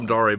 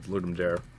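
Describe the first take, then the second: First: Dare is said with two syllables, Latin-style. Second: Dare is said as one syllable, like English. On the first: This is the original Latin pronunciation. The speaker calls it right. "it's Latin. It should be Dare" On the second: This is how most people say it. The speaker calls it wrong. "everyone pronounces it Ludum Dare"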